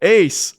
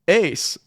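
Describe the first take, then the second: First: The name is called at a loud volume. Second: The name is called a little louder.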